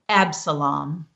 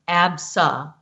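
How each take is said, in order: First: It is said smoothly as one whole word. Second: It is sounded out one syllable at a time.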